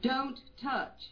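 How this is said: It is said in a sharp, urgent, warning tone. It signals danger so the child drops it. The speaker calls it right.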